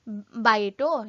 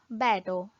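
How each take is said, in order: First: The first vowel is a diphthong, like 'ai'. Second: The first vowel is a plain 'e' sound. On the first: This is the careful, formal way of saying it. "instead of bito" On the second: This is the everyday spoken way of saying it. "they'll tell bat, bato"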